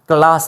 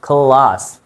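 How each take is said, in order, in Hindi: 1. "k" सादा है और "l" हल्का है। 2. "k" साँस वाला है और "l" मोटा है। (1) "क्लास नहीं, क्लास भी सही है, ज़्यादातर तो पढ़ाया तो यही गया" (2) "एल की साउंड को थोड़ा सा मोटा करते हैं और सी को थोड़ा सा खे की साउंड देते हैं"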